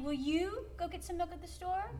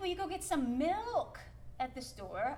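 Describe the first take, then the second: First: The stress falls on the word you. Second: The stress falls on the word milk. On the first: Nobody else is willing to do it. "nobody else wants to do it, but will you?" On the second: Milk is wanted, not eggs. "I didn't ask you to bring home eggs like you did last time"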